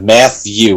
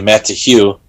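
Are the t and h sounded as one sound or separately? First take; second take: one sound; separately. First: The t and h form one th sound. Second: The t and h are sounded separately. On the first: "Matthew with a T H" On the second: "you break it off to T H E W, you say Matt Hugh"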